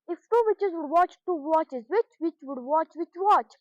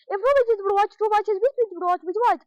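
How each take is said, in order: First: It is said at a slow pace. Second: It is said at a very fast pace.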